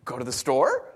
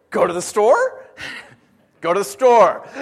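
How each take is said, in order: First: Said in the usual way. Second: Put-on high, loud, giggly little-girl asking; toddler's voice with laughter. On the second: Pastor imitates toddler asking to go shopping, giggling. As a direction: laugh through it like his small daughter. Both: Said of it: "her response is".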